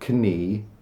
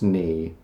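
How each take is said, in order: First: The k at the start is pronounced. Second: The k at the start is silent. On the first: The speaker calls it wrong. "It's not knee" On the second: The speaker calls it right. "it's just knee"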